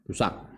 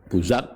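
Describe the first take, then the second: First: The middle consonant is a plain, light s. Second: The middle consonant is a voiced z sound. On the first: This form exists but is not well known. "Busak juga ada tapi tidak masyhur" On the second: This form is the more widely used one. "atau za"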